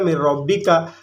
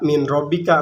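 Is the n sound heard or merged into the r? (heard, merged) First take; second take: merged; heard. First: The n sound merges into the following r. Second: The n sound is clearly heard before r. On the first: The speaker calls it right. "dibacanya mir robbika" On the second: The speaker calls it wrong. "tidak min robbika"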